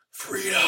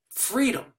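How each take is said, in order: First: A higher, stretched cry of the word Freedom; a hint of a dying hero's yell; mock rallying cry. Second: A much higher, ringing cry of the word freedom; hammed-up battle-cry reenactment; rallying cry. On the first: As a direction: mimic Wallace's last defiant call. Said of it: "he yells out". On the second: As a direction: cry out freedom like Wallace to rouse a crowd.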